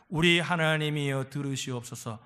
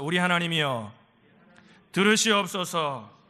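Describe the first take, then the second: First: Said in the usual way. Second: Firm, louder line for the congregation to echo; call-and-repeat prayer line, drawn out at the end; lead for repeating. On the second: Shown as a demonstration. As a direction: give out the prayer phrase slowly and firmly. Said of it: "따라합시다".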